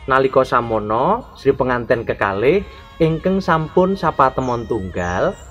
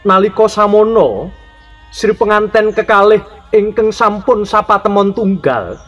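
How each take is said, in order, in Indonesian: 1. Diucapkan dengan suara percakapan yang biasa. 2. Diucapkan dengan tenaga suara yang berlebihan dan diperkuat. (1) "pembicaraan mengenai" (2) "Terus dilebaikan"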